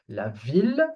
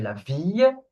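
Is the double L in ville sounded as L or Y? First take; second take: L; Y. First: The double L is sounded as an L. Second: The double L is sounded as a Y. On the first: The speaker calls it right. "there are exceptions" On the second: The speaker calls it wrong. "we don't say la ville"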